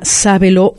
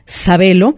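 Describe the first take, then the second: First: The stress is on the first syllable. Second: The stress is on the second syllable. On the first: "como lo quieran pronunciar" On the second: "En Sudamérica sería Sabelo"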